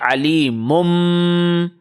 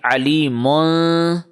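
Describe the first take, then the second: First: The word ends with a held, nasal m sound. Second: The word ends with a plain n sound. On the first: The speaker calls it right. "we are saying Ali mum" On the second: The speaker calls it wrong. "Instead of saying Ali mun"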